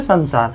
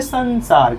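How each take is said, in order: First: Said in the usual way. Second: संसार split as "san-saar" with a clear n; careful n sound. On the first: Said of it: "क्या बोलते हैं". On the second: Shown as a demonstration. Teacher shows the dot spoken as n, careful pronunciation. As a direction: draw out संसार, holding the n before saar. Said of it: "इसका उच्चारण न में होगा".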